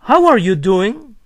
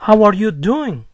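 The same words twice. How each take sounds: First: It has a questioning tune at the end. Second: It has a flat statement-like tune at the end.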